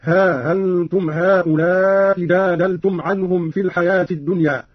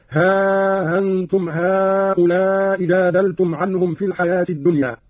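First: ها أنتم said ha-antum, alif kept short; short vowel reading. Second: ها أنتم with long drawn alif, slow; lengthened vowel. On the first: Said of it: "مع المد والقصر هكذا". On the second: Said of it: "والمد هكذا". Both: Shown as a demonstration.

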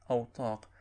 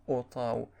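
First: أوطاق opening on a glottal u, ending in q; hamza with damma. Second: أوطاو ending in a w glide instead of q; qaf turned to waw. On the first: Narrator gives the Turkish form, أوطاق with u first and q last. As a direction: say أوطاق as "utaq", with a final qaf. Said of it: "بالهمزة المضمومة". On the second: Narrator shows the local variant, أوطاو with final w for q. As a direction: say أوطاو as "utaw", no qaf at the end. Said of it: "يبدلون القاف واوا". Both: Shown as a demonstration.

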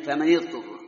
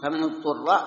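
First: فمن يضطر as "famani-ḍturra", i on the nun; harder kasra reading. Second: فمن اضطر as "famanu-ḍturra", u on the nun; easier damma reading. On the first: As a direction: link فمن to the ḍad with a short i. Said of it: "قد تكون أسهل على الإنسان من". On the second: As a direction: link فمن to اضطر with a short u. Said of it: "لأن قد تكون أيسر". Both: Shown as a demonstration.

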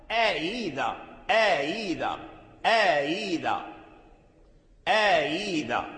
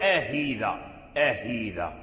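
First: آيذا with the hamza eased between hamza and ya, no h; slow careful آيذا, hamza softened toward ya; correct tashil. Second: آهيذا with a clear h in place of the eased hamza; the mistaken آهيذا, hamza turned to h; wrong h sound. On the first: Teacher models correct eased hamza for students. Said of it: "هذا هو التسهيل". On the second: Teacher shows students the faulty آهيذا with an h. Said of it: "هذا لحن". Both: Shown as a demonstration.

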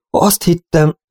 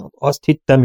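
First: "Azt hittem" stammered out, the start pitched high; stammering. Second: Said in the usual way. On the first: Acted. Old cowboy admitting his lie to Robin, stammering. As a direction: falter over "hittem" like a guilty old man. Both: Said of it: "hebegte a vénykovboly".

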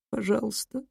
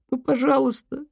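First: Sobbing. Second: High, breaking plea; tearful begging. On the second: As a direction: beg through tears. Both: Acted. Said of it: "всхлипнула Лу".

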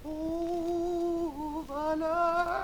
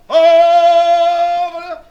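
First: Soft, breathless, winded; winded and much softer; out of breath. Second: Sung out, higher and louder; loud sung cry. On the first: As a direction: gasp it like someone out of breath. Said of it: "comme une personne essoufflée". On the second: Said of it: "Et comme si l'on criait bien fort". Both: Shown as a demonstration.

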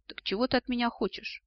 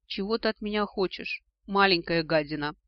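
First: Higher-pitched, guarded question; wary. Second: Plaintive cry. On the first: Ancestor repeating his question to the descendant, wary. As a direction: ask again, on your guard. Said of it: "настороженно повторил вопрос предок". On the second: Beaten dragon to his tormenting descendant, plaintive cry. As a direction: pitch up at first, louder on the insult. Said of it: "жалобно вскрикнул он". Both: A narrator's reading.

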